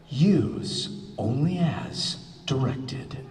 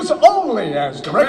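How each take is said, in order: First: It is said slowly. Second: It is said fast.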